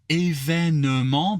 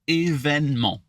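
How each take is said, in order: First: The middle e is fully sounded. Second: The middle e is dropped. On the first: This is the technically correct form. "it's technically événement" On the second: This is the relaxed everyday form. "you can shut off that e in the middle"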